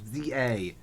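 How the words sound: Z is said the American way, as zee.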